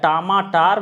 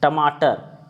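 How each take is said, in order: First: The vowel in the last syllable is long. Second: The vowel in the last syllable is short. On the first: The speaker calls it wrong. "या टमाटार भी हो सकता है" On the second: The speaker calls it right.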